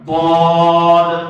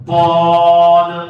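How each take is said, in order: Both takes have the same delivery.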